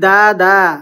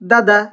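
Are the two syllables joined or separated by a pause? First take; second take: separated; joined. First: The two syllables are said apart with a pause. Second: The two syllables are said quickly and joined. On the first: The speaker calls it wrong. "যদি বলি দা দা তাহলে ভুল হবে" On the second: The speaker calls it right. "তাড়াতাড়ি পড়তে হয়"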